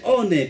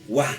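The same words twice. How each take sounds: First: "one" as Spanish O-ne, two syllables; the mistaken "one", every letter sounded; wrong spelling reading. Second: "one" said the English way, wan; English "one", drawn out as the correction; correct English pronunciation. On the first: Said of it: "esto no se dice one". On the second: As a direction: say "one" as one syllable starting with a w. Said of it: "sino se dice one". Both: Shown as a demonstration.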